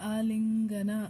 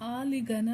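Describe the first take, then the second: First: An n sound comes just before the g. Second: The g comes with no n sound before it. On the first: The speaker calls it right. "So ನ sound ಬರುತ್ತೆ" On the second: The speaker calls it wrong. "ಆಲಿಗನ ಅಂತ ಹೇಳಿಲ್ಲ"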